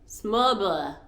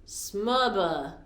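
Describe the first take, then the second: First: The D sound is dropped. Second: The D sound is dropped.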